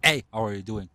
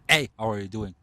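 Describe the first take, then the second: First: The voice sounds cool and detached. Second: The same.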